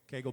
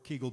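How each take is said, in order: First: The first vowel sounds like the vowel in 'bagel'. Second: The first vowel sounds like the vowel in 'beagle'. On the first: "Rhymes with bagel" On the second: "Or Kegel beagle"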